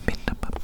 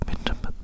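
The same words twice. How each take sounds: The two takes are said the same way.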